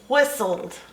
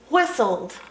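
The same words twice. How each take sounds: Both takes have the same delivery.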